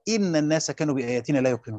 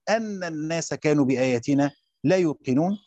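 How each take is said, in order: First: The first word begins with an 'i' vowel. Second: The first word begins with an 'a' vowel. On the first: It starts a new statement. "وكسرها" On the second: It gives the reason for what came before. "قرئ بفتح الهمزة"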